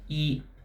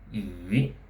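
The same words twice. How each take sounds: First: The pitch stays high and level throughout. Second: The pitch dips low and then rises. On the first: "the flat high tone" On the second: "the falling and rising tone"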